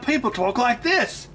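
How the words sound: It is said in an Australian accent.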